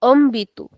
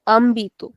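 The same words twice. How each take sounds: First: Ambitu starting on a closed "uh" sound; closed first vowel. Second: Ambitu with a full open "ah" first; open first vowel. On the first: Teacher giving the accented word, closed uh in ambitu. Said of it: "since we have the accent here". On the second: Teacher showing how it would sound without accent, open ah in ambitu. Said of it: "So we would say". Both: Shown as a demonstration.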